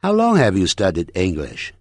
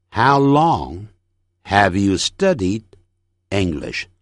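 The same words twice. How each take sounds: First: Said in the usual way. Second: Slow, with pauses after each phrase; careful, separated sentence drill; phrase-by-phrase model. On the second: Shown as a demonstration. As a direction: break it into chunks for learners to repeat. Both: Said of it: "整句练习".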